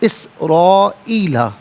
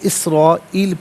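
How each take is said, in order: First: The word ends with a final vowel sound. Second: The word ends on a consonant, no final vowel. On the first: The reading continues without stopping. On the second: The reader stops at this word.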